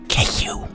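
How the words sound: It is said in a whisper.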